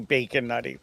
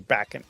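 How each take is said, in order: First: The first word sounds like 'bacon'. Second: The first word sounds like 'back and'. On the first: This is the intended name. "I think it's supposed to be Bacon Nutty" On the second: This is how the speaker says it. "but I say Back and"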